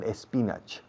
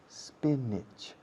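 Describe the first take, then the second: First: The word begins with an added 'eh' vowel. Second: The word begins directly with the 's' sound. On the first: The speaker calls it wrong. "the pronunciation is not espinach" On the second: The speaker calls it right. "It's spinach"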